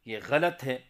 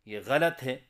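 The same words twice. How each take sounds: The two takes are said the same way.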